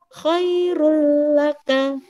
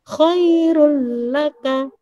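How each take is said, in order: First: The n merges straight into the l. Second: The n merges straight into the l.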